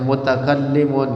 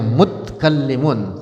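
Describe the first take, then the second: First: The t is followed by a short a vowel. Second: The t has no vowel after it. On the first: The speaker calls it wrong. "enggak enak" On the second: The speaker calls it right. "taknya disukuni"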